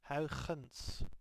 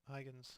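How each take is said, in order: First: The name has a native Dutch pronunciation. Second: The name has an English-style pronunciation.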